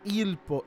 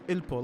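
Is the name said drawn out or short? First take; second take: drawn out; short. First: The name is said long and drawn out. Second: The name is said short and clipped. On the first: The speaker calls it wrong. "make sure not" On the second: The speaker calls it right. "like short"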